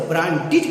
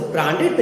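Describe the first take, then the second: First: ब्रांडेड said with a short "id" at the end; correct ending. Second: ब्रांडेड said with an open "ed" at the end; wrong ending. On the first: Teacher modelling the right ब्रांडेड, clear. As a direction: say ब्रांडेड as "bran-did". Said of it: "आप इसे ब्रांडेड कहिए". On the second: Teacher warning students off ब्रांडेड, firm. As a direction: say ब्रांडेड as "bran-ded", the form to avoid. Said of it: "नहीं कहिए". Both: Shown as a demonstration.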